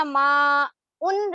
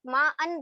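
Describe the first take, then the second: First: ما ان drawn out slowly as "maa-un"; slow ما, then "un" for ان; ending said "un". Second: ما ان said as "maa-an"; "an" sound for ان after ما; ending said "an". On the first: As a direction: say ان with a short u. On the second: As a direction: say ان with a short a. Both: Shown as a demonstration. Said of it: "ما ان بنتے ہی".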